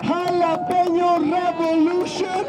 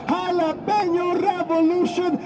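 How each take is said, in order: Both takes have the same delivery.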